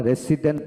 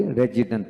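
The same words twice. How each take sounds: First: "রেসিডেন্ট" with a hissed s, re-si-dent; "রেসিডেন্ট" as re-SI-dent, no j sound; "s" variant. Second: "রেজিডেন্ট" with a voiced j, re-ji-dent; "রেজিডেন্ট" as re-JI-dent, no s sound; "j" variant. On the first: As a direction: say "রেসিডেন্ট" with s in the middle. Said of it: "আবার আমরা রেসিডেন্ট বলি". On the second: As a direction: say "রেজিডেন্ট" with j in the middle. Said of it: "রেজিডেন্ট বলি". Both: Shown as a demonstration.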